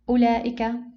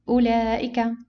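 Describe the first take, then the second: Both takes have the same delivery.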